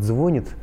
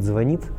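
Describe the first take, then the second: First: The stress is on the first syllable. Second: The stress is on the second syllable. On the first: The speaker calls it wrong. "неправильно говорит «звонит»" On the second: The speaker calls it right. "а правильно говорит «звонит»"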